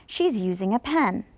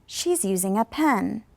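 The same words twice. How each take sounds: First: "pen" in "She's using a pen." drops at the end; falling intonation on pen. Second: Slow repeat with "pen" falling; falling intonation on pen. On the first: Teacher to students repeating after her, falling on pen. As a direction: model sentence, pitch settling down on "pen". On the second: Teacher giving second slower model, falling on pen. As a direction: say "She's using a pen." slowly, voice sinking on "pen". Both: Shown as a demonstration. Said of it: "that was going down as well".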